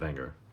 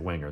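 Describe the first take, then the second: First: The name begins with a V sound. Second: The name begins with a W sound. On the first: This is how the company's own people say it. "they pronounced the W as a, a we" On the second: This is how English speakers read it. "we would look at that and say Wenger"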